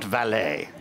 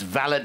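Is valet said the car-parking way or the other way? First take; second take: car-parking; other way. First: It is said the car-parking way. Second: It is not said the car-parking way. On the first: Someone who parks cars. The speaker calls it wrong. "we're not parking cars" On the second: A personal manservant. The speaker calls it right. "it's valet"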